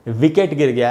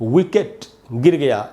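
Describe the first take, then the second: First: The first sound uses upper teeth on lower lip. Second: The first sound is made with rounded lips. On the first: The speaker calls it wrong. "ऐसे नहीं बोलना चाहिए" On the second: The speaker calls it right. "ऐसे बोलना चाहिए ... इसमें होठ गोल होते हैं"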